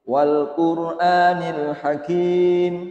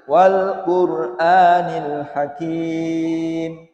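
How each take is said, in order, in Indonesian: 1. Vokal sebelum m akhir dibaca sebentar. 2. Vokal sebelum m akhir dibaca sedang. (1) "Itu yang satu alif" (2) "Yang dua alif"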